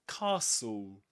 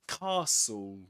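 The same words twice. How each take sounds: No difference in how they are said.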